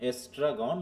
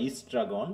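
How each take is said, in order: First: এস্ট্রাগন starting on "es", said slowly; ESTRAGON with E. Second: ইস্ট্রাগন starting on "is", said slowly; ISTRAGON with I. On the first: Teacher giving alternative pronunciations, slow এস্ট্রাগন with initial "e". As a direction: open slow এস্ট্রাগন with an "e" vowel. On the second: Teacher giving alternative pronunciations, slow ইস্ট্রাগন with initial "i". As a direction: open slow ইস্ট্রাগন with an "i" vowel. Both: Shown as a demonstration. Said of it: "বিভিন্নভাবে উচ্চারণটা আছে".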